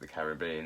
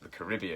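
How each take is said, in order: First: Caribbean is said with a British pronunciation. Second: Caribbean is said with an American pronunciation. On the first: "everybody else calls it the Caribbean" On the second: "Americans call it the Caribbean"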